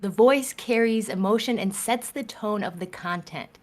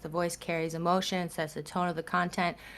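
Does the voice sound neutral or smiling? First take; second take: smiling; neutral. First: The voice sounds warm, spoken through a smile. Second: The voice sounds neutral, without a smile. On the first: "I'm smiling now a little bit more" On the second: "if my voice is kind of like this"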